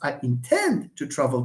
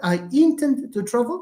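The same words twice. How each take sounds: First: The stress is on the second syllable. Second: The stress is on the first syllable. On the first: The speaker calls it right. "it's I intend to travel tomorrow" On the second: The speaker calls it wrong.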